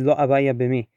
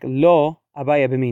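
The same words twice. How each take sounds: First: It pauses before the last word. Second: It pauses after the first word.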